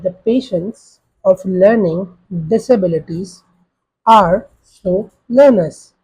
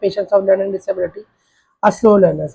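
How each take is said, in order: First: It is said slowly, with the words spaced out. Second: It is said at an ordinary conversational pace. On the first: The listener may struggle to process speech. "I'm going to lower down my tone" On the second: The listener can follow ordinary speech. "for a normal patient, you're just gonna say"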